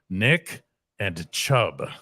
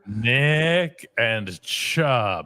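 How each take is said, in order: First: It is said at a normal pace. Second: It is said slowly and deliberately.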